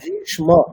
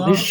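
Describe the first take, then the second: First: The sh and m are both clearly pronounced. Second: The sh and m sounds are blurred together. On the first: The speaker calls it right. "মূর্ধন্য স ম দুটোরই স্পষ্ট উচ্চারণ করতে হবে" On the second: The speaker calls it wrong. "ভীষ্ম না"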